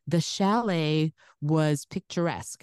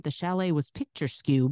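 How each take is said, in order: First: Said in the usual way. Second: "picture skew" said as two words, picture then skew; "picture skew" misreading of picturesque, skew rhyming with few; mispronounced. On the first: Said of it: "I was supposed to say". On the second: Retold or imitated. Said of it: "And I went".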